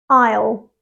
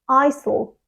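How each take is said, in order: First: It is one syllable with no S sound. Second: It is two syllables with an S sound. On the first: The speaker calls it right. "It has just one syllable" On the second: The speaker calls it wrong. "Most students say it with two syllables and they pronounce the S sound"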